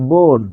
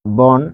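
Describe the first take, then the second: First: "বন" pronounced bon, with a rounded ও; closed o vowel. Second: "বন" with an open aw vowel, bawn; pronounced as written. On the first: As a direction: say "বন" as বোন, the অ turned to ও. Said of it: "তখন এটির উচ্চারণ কি হচ্ছে". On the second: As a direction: say "বন" with the inherent open অ sound. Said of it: "যখন আমরা লিখছি". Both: Shown as a demonstration.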